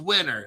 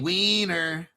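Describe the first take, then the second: First: It is said in a plain accent. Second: It is said in a Latin American accent.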